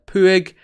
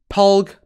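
First: The name is said without an L sound. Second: The name is said with an L sound. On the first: The speaker calls it right. "It's Puig" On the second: The speaker calls it wrong. "not Plug or Pulg"

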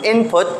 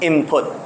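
First: The first syllable ends with an n sound. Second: The first syllable ends with an m sound. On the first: "From input" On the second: "it sounds more like an input"

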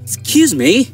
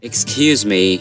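First: It is said in a calling, attention-getting tone. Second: It is said in a soft, apologetic tone. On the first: The speaker wants someone's attention. "এই যে শুনুন" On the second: The speaker is asking for pardon. "মাফ করবেন"

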